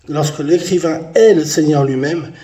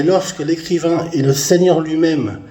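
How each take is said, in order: First: "est" held and leaned on; stress on est. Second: Said in the usual way. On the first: Real, not acted. Preacher repeating that the writer is the Lord, stress on "est". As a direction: lean firmly on "est", drawing it out.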